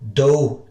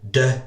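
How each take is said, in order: First: It ends in an open 'oo' vowel. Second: It ends in an open 'ay'-like vowel. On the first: "it's no do" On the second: "de or doke"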